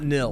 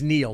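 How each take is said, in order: First: The name is said as Nil. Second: The name is said as Neil. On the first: The speaker calls it wrong. "not Nil" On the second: The speaker calls it right. "my name is Neil"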